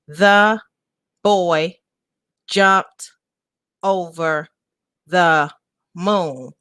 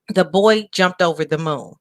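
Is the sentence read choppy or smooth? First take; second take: choppy; smooth. First: The words are broken up with pauses. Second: The words flow smoothly without breaks. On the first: The speaker calls it wrong. "When you read it choppy like that" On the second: The speaker calls it right. "I just said that fluently"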